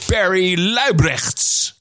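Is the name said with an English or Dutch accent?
English. The name is said with an English accent. "I got the pronunciation right"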